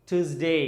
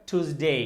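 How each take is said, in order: The two takes are said the same way.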